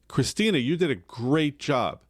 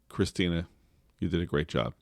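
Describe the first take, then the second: First: The praise sounds warm and enthusiastic. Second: The praise sounds cool and patronizing. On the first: The praise is sincere. The speaker calls it right. "big smile, Christina, you did a great job. Awesome" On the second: Someone else made the speaker say it. The speaker calls it wrong. "Doesn't that sound more patronizing?"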